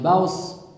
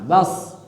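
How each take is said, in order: First: A w glide comes before the s. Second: The vowel goes straight into the s. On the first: The speaker calls it wrong. "Jangan baus, gak ada wawunya" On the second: The speaker calls it right. "langsung bas"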